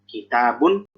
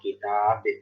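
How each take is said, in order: First: The word ends with a final n sound. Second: The word ends on b, with no n. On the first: The reading continues without stopping. "kebaca hanya ketika disambung" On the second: The reader stops at this point. "kalau wakaf"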